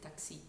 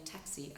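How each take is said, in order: First: "taxi" with French A, stressed on the last syllable, softer; French-accented "taxi", tah-XEE. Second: Said in the usual way. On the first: Shown as a demonstration. Coach contrasting her stress with the English, French "taxi". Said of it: "I said taxi". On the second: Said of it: "Instead of saying taxi".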